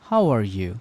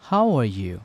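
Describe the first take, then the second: The two takes are said the same way.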